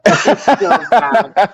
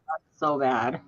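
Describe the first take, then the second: First: Loud, slow laughing cry; bursting out laughing. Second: Soft laughing disbelief; giggling under the breath. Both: Real, not acted. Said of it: "Oh, my God".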